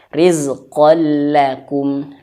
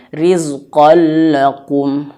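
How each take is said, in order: First: The l sound is light and thin. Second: The l sound is heavy and thick. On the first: The speaker calls it right. "lamnya tipis" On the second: The speaker calls it wrong. "Jangan sampai rizqan lakum. La la. Lamnya tebal ya, jangan"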